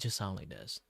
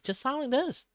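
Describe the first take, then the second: First: The voice is low in energy and weary. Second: The voice is pushed out with more energy. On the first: The speaker is tired. "If I'm just tired" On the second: The speaker has much more energy. "If I'm just like having much more energy, I can just push out"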